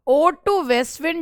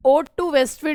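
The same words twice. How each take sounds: First: "Ode to West Wind" drawn out slowly, each word weighted; slow emphatic title. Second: Said in the usual way. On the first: Shown as a demonstration. Teacher repeats the poem title for students, slow and emphatic. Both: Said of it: "Ode to West Wind repeated".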